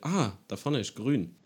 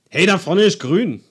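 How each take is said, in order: First: It sounds like musing aloud to oneself. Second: It sounds like an urging call to act.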